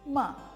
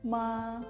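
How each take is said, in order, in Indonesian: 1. Diucapkan dengan nada keempat. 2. Diucapkan dengan nada pertama. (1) "Nada keempat ma" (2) "nada pertama yaitu ma"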